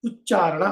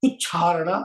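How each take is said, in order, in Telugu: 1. మధ్యలో ఉన్న 'ch' ను ఊష్మం లేకుండా పలుకుతారు. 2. మధ్యలో ఉన్న 'ch' ను ఊష్మంతో పలుకుతారు. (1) "ఉచ్చారణ అనాలి" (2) "ఉచ్చారణ అనకూడదు"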